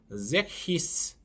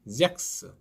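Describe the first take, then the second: First: The middle sounds like an h then s. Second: The middle sounds like a k then s. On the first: The speaker calls it wrong. "잭히스 이렇게 하시면 안 됩니다" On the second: The speaker calls it right. "잭스 이렇게 발음하시면 됩니다"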